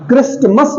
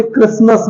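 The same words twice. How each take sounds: First: क्रिस्टमस with T sounded, "kris-t-mas"; wrong pronunciation. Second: क्रिसमस with no T, "kris-mas"; silent T. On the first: Teacher showing what not to say, wrong pronunciation. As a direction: put an audible T in क्रिस्टमस. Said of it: "क्रिस्टमस नहीं है". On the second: Teacher giving the correct form, silent T. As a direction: glide from S to M in क्रिसमस. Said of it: "इसे क्रिसमस बोलते हैं". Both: Shown as a demonstration.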